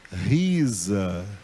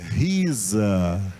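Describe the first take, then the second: The two takes are said the same way.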